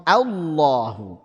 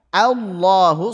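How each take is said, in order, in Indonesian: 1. Vokal pembuka tipis dan terang. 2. Vokal pembuka tipis dan terang.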